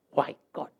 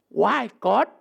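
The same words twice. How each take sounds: First: Lower, softer mock whine; preacher mocking the complaint quietly; muted whine. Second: Preacher voicing a complaint at God; complaining question. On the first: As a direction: mumble the complaint as if it barely counts. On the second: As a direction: mildly demand an answer from God. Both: Shown as a demonstration. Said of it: "Tak pantas kau bertanya".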